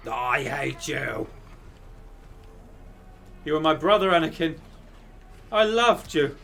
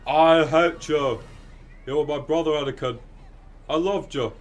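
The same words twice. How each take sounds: First: A hammed-up heartbroken Jedi; Obi-Wan impression. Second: Obi-Wan as Brian Butterfield. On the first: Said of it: "your Anakin and Obi-Wan impression again". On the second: Retold or imitated. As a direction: overplay the betrayal like a hapless Brit. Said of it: "Obi-Wan impression ... as Brian Butterfield".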